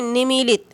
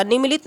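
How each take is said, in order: First: निमीलित with long middle ee, ni-mee-lit; correct form. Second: निमीलित with short middle vowel, ni-mi-lit; wrong form. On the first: Teacher modelling pure pronunciation for students, correct form. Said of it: "जब हम शुद्ध उच्चारण करेंगे". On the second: Teacher showing students the misspelling, wrong form. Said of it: "निमीलित नहीं". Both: Shown as a demonstration.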